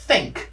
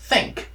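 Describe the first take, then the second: Both takes have the same delivery.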